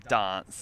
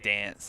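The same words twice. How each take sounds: First: It is said in a more British-sounding Australian accent. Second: It is said in a less British-sounding Australian accent. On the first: "us in South Australia usually have a more British accent" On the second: "in New South Wales and the East Coast"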